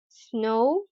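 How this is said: The vowel is said the American way. "The vowel sound o, o in American English"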